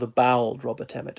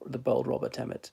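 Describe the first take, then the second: First: It is said in a Dublin accent. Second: It is said in the speaker's usual accent.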